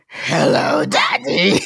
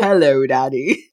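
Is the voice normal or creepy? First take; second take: creepy; normal. First: It is said in a deep, creepy voice. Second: It is said in a normal voice.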